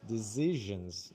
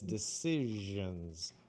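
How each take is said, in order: First: The middle consonant is buzzed like a Z. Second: The middle consonant is hissed like an S. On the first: The speaker calls it wrong. "like what you did now was dis, dis" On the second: The speaker calls it right. "but it's decisions"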